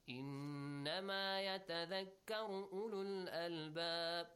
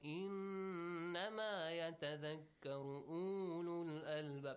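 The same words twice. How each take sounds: First: The vowel in 'ulul' is kept short. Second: The vowel in 'ulul' is drawn out long. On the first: The speaker calls it right. "do not extend it" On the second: The speaker calls it wrong. "You don't say"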